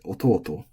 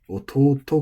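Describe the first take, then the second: First: The pitch peaks on the long syllable, then drops. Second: The pitch stays high through the end of the word. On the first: The speaker calls it wrong. "we want to say ototo" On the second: The speaker calls it right. "ototo ga"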